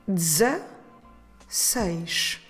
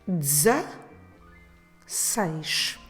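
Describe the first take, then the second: Both takes have the same delivery.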